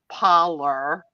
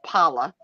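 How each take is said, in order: First: It is said slower with a toned-down Southern accent. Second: It is said with her usual strong Southern accent.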